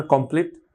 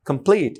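First: Said in the usual way. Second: "কমপ্লিট" with a small puff on the stressed p; slightly aspirated P. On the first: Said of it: "আমরা মানে কমপ্লিট হবে কি". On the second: Shown as a demonstration. Teacher correcting for learners, slightly aspirated P. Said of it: "ছোট্ট একটু aspirated সাউন্ডের মতো".

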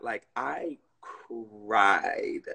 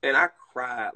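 First: "cried" stretched very long and low; slow, heavy emphasis on "cried"; emphatic drawn-out CRIED. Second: Said in the usual way. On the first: Real, not acted. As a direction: drag out the word "cried" for weight. Repeats it to stress how much.

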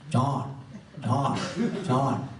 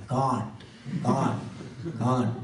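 First: Put-on Bengali-accented "chant", each one separate; heavy Bengali accent. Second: Put-on Bengali-accented "can't", each one separate; heavy Bengali accent. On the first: Teacher telling people to chant, imitated Bengali accent. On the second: People answering the teacher they can't, imitated Bengali accent. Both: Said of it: "he had a very heavy Bengali accent".

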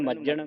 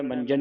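First: "ਮੱਜਣ" with a tight doubled j; tight double consonant. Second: "ਮੰਜਣ" with an n before the j; mistaken nasal. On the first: Teacher tells students to say it tightly, "ਮੱਜਣ" with doubled j. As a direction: press hard on the jj of "ਮੱਜਣ". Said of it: "ਮੱਜਣ ਕੱਸ ਕੇ ਬੋਲਣਾ". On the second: Teacher mimics the congregation's misreading, "ਮੰਜਣ" with n. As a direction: slip an n into "ਮੰਜਣ", as manjan. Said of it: "ਮੰਜਣ ਨਹੀਂ ਕਹਿਣਾ". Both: Shown as a demonstration.

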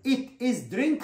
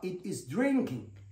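First: Said in the usual way. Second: Slow, with "drinking" stressed; corrected stress. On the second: Shown as a demonstration. Teacher correcting the wrong form, stressing "drinking". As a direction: land on "drinking" slowly after the wrong form. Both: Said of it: "خطأ".

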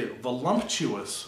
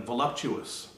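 First: Voluptuous said vo-lump-shoo-us with an M; an added M in voluptuous; mispronounced voluptuous. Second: Said in the usual way. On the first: Shown as a demonstration. Quizzing viewers, voluptuous with an M. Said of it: "voluptuous rather than voluptuous". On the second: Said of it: "rather than voluptuous".

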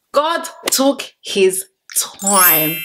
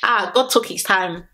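First: Hushed, drawn-out praise; slow admiring whisper. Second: Said in the usual way. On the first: Shown as a demonstration. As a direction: whisper "God took his time" slowly and in awe. Repeats it whispered, slowly.

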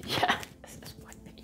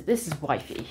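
First: Whispered through a laugh, softer; a laughing hushed repeat; giggly whisper. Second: Said in the usual way. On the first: Acted. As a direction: say it again as a giggling secret. Same line repeated as a secret.

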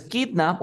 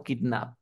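First: Put-on "kidnap" with the punch on KID; first syllable of "kidnap" stressed. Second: "kidnap" with the punch on NAP; last syllable of "kidnap" stressed. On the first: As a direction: hit KID, let nap fall away. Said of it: "¿Dónde lleva la fuerza de voz?". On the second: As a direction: lean on the second syllable, kidNAP. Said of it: "¿En kid o en nap?". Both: Shown as a demonstration.

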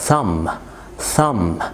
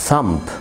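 First: Thumb said as "thum", b silent; thumb ending on m; correct pronunciation. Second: Thumb with the b sounded, "thum-b"; thumb ending on a hard b; wrong pronunciation. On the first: (thumb من غير الـ b) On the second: (thumb غلط بنطق الـ b) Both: Shown as a demonstration.

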